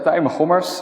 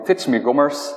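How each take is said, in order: First: The first syllable has a plain vowel sound. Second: The first syllable contains a 'ts' sound. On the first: The speaker calls it right. "it's actually an I in the Netherlands" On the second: The speaker calls it wrong. "people often call me Titsme Gommers"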